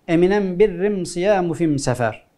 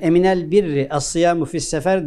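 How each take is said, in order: First: The article is pronounced with an m sound. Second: The article is pronounced with an l sound. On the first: This is a rare dialect form. "Elif lam yerine em kullanırlar" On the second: This is the standard form. "Yani ... diyecek"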